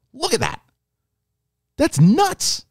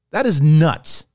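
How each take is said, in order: First: Amazed. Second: Said in the usual way. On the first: Real, not acted. Fan reacting to the deepfake, high and amazed. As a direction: blurt it out in awe.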